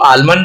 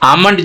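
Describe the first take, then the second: First: The l sound is clearly pronounced. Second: The l sound is left out. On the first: This is how it was said long ago. "उसको आलमंड बोलते होंगे" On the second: This is the modern pronunciation. "जिसको हम आज बोलते हैं"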